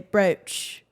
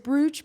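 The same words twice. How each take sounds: First: The word is said in a British way. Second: The word is said in a non-British way. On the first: "but the British say brooch" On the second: "Or maybe it is brooch"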